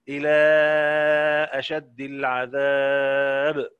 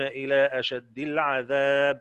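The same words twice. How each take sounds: First: The vowel before the glottal stop is held medium. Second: The vowel before the glottal stop is held short. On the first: "اندرج مع أهل التوسط" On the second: "القصر وأهل القصر"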